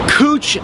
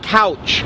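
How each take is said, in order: First: It sounds different from the everyday word couch. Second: It sounds like the everyday word couch. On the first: The speaker calls it right. "That is how we pronounce the street" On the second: The speaker calls it wrong. "It's not couch"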